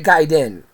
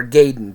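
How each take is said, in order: First: "Gaiden" said GUY-den, long i first; GUY-den pronunciation. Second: "Gaiden" said GAY-den, long a first; GAY-den pronunciation. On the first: Reviewer naming the next game, "Gaiden" pronounced GUY-den. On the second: Reviewer offering the other reading, "Gaiden" pronounced GAY-den. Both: Shown as a demonstration. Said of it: "depending on how you say it".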